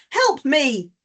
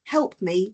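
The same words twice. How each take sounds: First: Help me as an exclamation, raised voice; urgent, emphatic demo cry for help; exclaimed plea. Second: Said in the usual way. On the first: Shown as a demonstration. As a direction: raise the voice into a mild demo shout. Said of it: "a shouting, a raising of the voice". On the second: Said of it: "it suddenly changes from".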